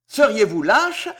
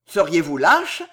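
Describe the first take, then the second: First: Growing exaltation. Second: Louder, scornful challenge; contemptuous. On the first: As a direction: challenge with mounting fervour. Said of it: "avec une exaltation croissante". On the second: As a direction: throw the question out with contempt. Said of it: "s'écria Villefort d'une voix méprisante". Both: A narrator's reading.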